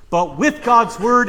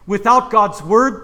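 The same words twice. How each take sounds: First: "with" pushed up and louder, rising; stress on with. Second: "Without" pushed up and louder; stress on without. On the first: Preacher contrasting baptism with God's word, stressed. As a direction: punch "with" hard and lift the tune. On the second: Preacher contrasting baptism without God's word, stressed. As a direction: lean hard on "Without", rising at the end. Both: Shown as a demonstration. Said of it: "contrasting with and without".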